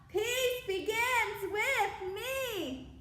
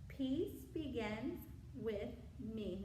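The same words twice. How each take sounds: First: It is shouted at full loudness. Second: It is said at normal speaking volume. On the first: "Now shout it out" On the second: "We're going to use our regular voice"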